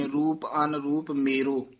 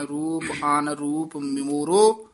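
First: The careless ਮੇਰੋ that readers say; common wrong reading. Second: ਮੋਰੋ said slowly with a clear o, a gap inside ਅਨਰੂਪ; slow and careful: ਅਨ-ਰੂਪ ਮੋਰੋ; careful correct reading. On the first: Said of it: "ਆਮ ਪਾਠੀ ਸਿੰਘ ਮੇਰੋ ਕਹਿ ਦਿੰਦੇ ਨੇ". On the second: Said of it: "ਮੋਰੋ ਕਹਿਣਾ ਹੈ ਧਿਆਨ ਨਾਲ". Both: Shown as a demonstration.

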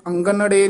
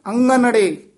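First: ਅੰਗਨੜੇ with an audible hard g after the ng; wrong hard g. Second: ਅੰਗਨੜੇ with pure ng and no g; higher, emphatic ਅੰਗਨੜੇ, nasalising the ਗ away; nasal ng sound. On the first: Teacher showing the mistake, hard-g ਅੰਗਨੜੇ. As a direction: sound the ਗ fully in ਅੰਗਨੜੇ. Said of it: "ਅੰਗਨੜੇ ਗੱਗਾ ਨਹੀਂ ਲਾਉਣਾ ਹੈ". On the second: Teacher modelling the correction, pure-ng ਅੰਗਨੜੇ. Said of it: "ngੰਗਾ ਬੋਲਣਾ ਹੈ". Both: Shown as a demonstration.

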